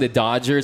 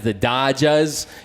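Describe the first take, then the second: First: It is said in a plain local accent. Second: It is said in a Boston accent. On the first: The speaker calls it right. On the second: The speaker calls it wrong.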